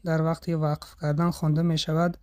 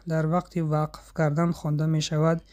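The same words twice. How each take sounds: No difference in how they are said.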